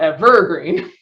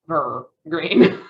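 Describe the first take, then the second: First: The stress is on a later syllable. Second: The stress is on the first syllable. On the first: "as opposed to" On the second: "the first syllable is stressed"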